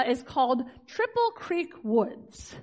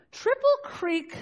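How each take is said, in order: First: Said in the usual way. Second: Triple Creek said slow and high, each word weighed; stressed name. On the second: Shown as a demonstration. Naming her parents' neighbourhood to the congregation, slow and emphatic.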